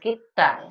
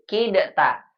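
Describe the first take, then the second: First: The d merges fully into a doubled t. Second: The d is released separately before the t. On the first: The speaker calls it right. "enggak langsung kita" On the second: The speaker calls it wrong. "tidak kita bilang anta kidata"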